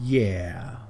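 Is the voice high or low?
low. It is said in a lower, villainous voice.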